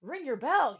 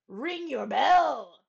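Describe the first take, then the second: First: Page calling to the bell ringer again; called out. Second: Louder, slow calling "Ring your bell!"; called out. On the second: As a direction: call up to the bell ringer. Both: Acted. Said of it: "he called".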